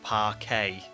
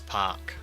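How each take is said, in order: First: The word is said with two syllables. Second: The word is said with one syllable. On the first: The speaker calls it wrong. "it's not parquet" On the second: The speaker calls it right. "it's park"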